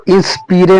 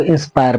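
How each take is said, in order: First: इंस्पीरे with ee and final e; wrong spelling pronunciation. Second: इंस्पायर with an 'ai' glide and -ar ending; correct pronunciation. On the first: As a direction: misread inspire as इंस्पीरे. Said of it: "इंस्पीरे नहीं पढ़ना है". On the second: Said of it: "इसको इंस्पायर पढ़ना है". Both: Shown as a demonstration.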